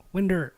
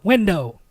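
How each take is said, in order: First: "Winder" ending in -er instead of -ow; wife's Kentucky pronunciation. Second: "window" with a clear -oh ending; correcting pronunciation. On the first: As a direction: imitate her Kentucky "Winder". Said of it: "Or she'll open the window". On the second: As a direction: correct her with a full o in "window". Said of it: "No, no". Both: Retold or imitated.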